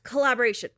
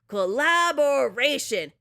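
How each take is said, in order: First: It is said weakly, without force. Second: It is said strongly, with force.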